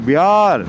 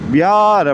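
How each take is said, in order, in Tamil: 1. நடுவில் இருப்பது 'y' ஒலி. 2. நடுவில் இருப்பது 'y' ஒலி.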